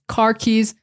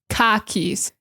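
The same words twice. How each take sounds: First: The R in car is pronounced. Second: The R in car is dropped.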